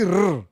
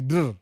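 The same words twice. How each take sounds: First: RR as a loud, drawn-out rolled trill; wrong rolled R. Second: DRR with a D-like tap into the R; slight tongue twist. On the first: Streamer showing viewers the sound to avoid, RR heavily trilled. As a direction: overdo RR with a strong tongue trill. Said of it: "una twist tongue kidogo tu". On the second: Streamer teaching viewers to twist the tongue slightly, DRR with a D onset. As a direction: say DRR loudly, tongue twisted just a little. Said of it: "twist tongue kidogo tu". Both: Shown as a demonstration.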